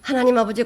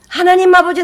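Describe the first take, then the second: First: Said in the usual way. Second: 하나님 much higher and louder, pleading; hammed-up desperate prayer; mock fervent cry. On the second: Preacher mimicking a zealous prayer, loud mock cry. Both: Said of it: "이렇게 기도 못 합니다".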